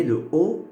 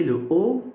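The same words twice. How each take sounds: First: O said as closed /o/; closed o sound. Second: O said as open /ɔ/, as in sol; open o sound. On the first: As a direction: give O the closed vowel /o/, as in sot. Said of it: "je mets le O fermé". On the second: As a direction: give O the open vowel /ɔ/. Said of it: "je mets le O ouvert". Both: Shown as a demonstration.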